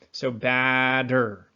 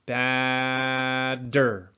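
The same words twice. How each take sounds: First: Batter, slow, with a flapped D; slowed-down teaching demo. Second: Batter with the D flap and a raised ah; repeated teaching demo; demo word. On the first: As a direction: say batter slowly so the tongue tap is heard. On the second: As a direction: say batter again, careful and clear. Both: Shown as a demonstration. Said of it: "we slam it right up top".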